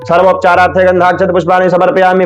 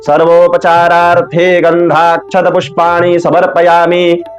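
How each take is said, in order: First: It is recited quickly and hurriedly. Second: It is recited slowly and steadily. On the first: It sounds like the reciter is about to miss a train. The speaker calls it wrong. "बहुत जल्दी से बोलते हैं" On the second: It sounds like a Vedic priest performing the worship. The speaker calls it right. "आराम-आराम से स्थिरता पूर्वक"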